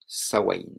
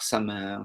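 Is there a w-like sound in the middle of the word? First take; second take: yes; no. First: The middle has a w-like sound. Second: The middle has no w-like sound. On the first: The speaker calls it right. "comme s'il y avait un W" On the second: The speaker calls it wrong. "des prononciations un petit peu bizarres"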